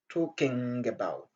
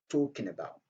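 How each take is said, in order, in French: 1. 'Talking' se termine par un son ng complet. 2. 'Talking' se termine par un son n, pas de g. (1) "C'est pas" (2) "C'est comme si on avait tout simplement N à la fin et non les G"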